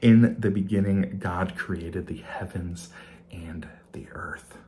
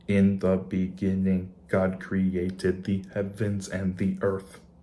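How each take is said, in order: First: It is said in a normal speaking voice. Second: It is said in a flat robotic voice.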